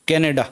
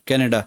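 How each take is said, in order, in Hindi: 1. यह शब्द अंग्रेज़ी उच्चारण से बोला जाता है। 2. यह शब्द अंग्रेज़ी उच्चारण से बोला जाता है।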